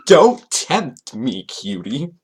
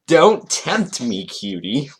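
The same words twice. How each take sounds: First: Milk the cheesy come-on, very slowly; exaggerated mock flirty. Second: Slow, hammed-up come-on, dropping on "cutie"; mock flirty. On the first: Host repeating the pickup line, hammed-up mock flirty. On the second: Host reading Toon's roleplay line, mock flirty. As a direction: tease it out with mock seduction.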